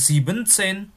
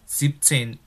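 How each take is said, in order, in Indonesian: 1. Kata ini mempertahankan suku kata tambahan "en". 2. Kata ini menghilangkan suku kata "en". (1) "itu juga bukan siebzehn" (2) "tetapi siebzehn. E-N-nya weg, hilang"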